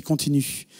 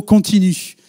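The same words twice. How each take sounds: First: Softer, God's single word said low; quiet divine word. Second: Said in the usual way. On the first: Retold or imitated. God gently telling the student to keep going, softly. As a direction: hush it like God's quiet nudge. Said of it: "C'était Dieu qui a dit". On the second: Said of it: "Vous m'avez dit juste un mot".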